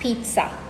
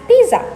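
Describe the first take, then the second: First: The middle is said with a T sound. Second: The middle is said as a plain Z sound. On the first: The speaker calls it right. "there is a T that is not there in the word that you have to inject into the middle of the word" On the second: The speaker calls it wrong. "people tend to pronounce this as pizza because that is how it is written"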